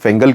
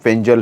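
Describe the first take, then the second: First: The middle consonant is a hard g sound. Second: The middle consonant is a j sound. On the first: This is how people commonly say the name. The speaker calls it wrong. "आमतौर पर हम फेंगल कहते हैं" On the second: This is the officially given pronunciation of the name. The speaker calls it right. "इसका जो pronunciation है वो फेंजल है"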